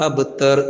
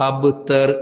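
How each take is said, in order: No difference in how they are said.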